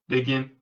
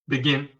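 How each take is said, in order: Both takes have the same delivery.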